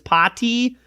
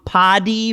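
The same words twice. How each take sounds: First: It is said with a British crisp, clear T. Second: It is said with an American soft, flapped T. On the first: "English English"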